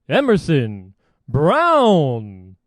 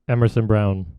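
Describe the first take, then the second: First: The name is announced with loud, excited energy. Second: The name is announced in a flat, plain voice. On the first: The player is on the home team. The speaker calls it wrong. "It should not be Emerson Brown in an away game" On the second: The player is on the visiting team. The speaker calls it right. "They would say Emerson Brown"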